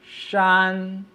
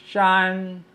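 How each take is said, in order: The two takes are said the same way.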